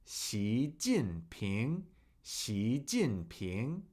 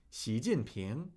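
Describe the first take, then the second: First: Xi Jinping drawn out very slowly, low and soft; slow pronunciation demonstration. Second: Said in the usual way. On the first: Shown as a demonstration. Teacher drilling the chairman's name for students, Xi Jinping in slow separate syllables. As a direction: model Xi Jinping one syllable at a time, ending on a rise. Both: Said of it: "That is how you say his name".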